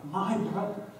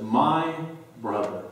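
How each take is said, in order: First: Higher, hushed and breaking; a sister's broken, near-whispered plea; grieving sister. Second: Quiet grieving emphasis. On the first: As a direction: let the words catch in grief. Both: Retold or imitated. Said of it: "a stronger emphasis from Mary".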